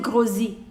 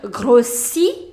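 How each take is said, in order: First: The middle consonant is a buzzing Z sound. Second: The middle consonant is a hissing S sound. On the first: The speaker calls it wrong. "not Z. Don't say grossi, no" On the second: The speaker calls it right. "pronounce it as S, S, not Z"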